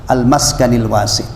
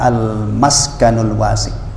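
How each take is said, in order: First: The word maskan ends with an i vowel. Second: The word maskan ends with a u vowel. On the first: The phrase is read in the genitive case. "Boleh majrur ya" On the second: The phrase is read in the nominative case. "Bisa juga dibaca al-maskanul wasi'"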